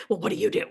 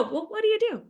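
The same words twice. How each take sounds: First: "Well, what do you do?" as a pointed challenge; the confrontational wrong way to ask; mock threatening. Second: High, friendly, casual question; disarmingly innocent small talk; non-threatening. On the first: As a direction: ask it like an interrogation, half joking. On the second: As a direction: ask lightly, pitched well up, with easy curiosity. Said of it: "in a way that doesn't feel". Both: Shown as a demonstration.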